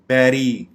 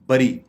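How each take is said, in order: First: The first vowel sounds like 'eh'. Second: The first vowel sounds like 'uh'. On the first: The speaker calls it right. "जबकि इसकी दुरुस्त pronunciation है बैरी" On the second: The speaker calls it wrong. "हम इसको बरी कहते हैं"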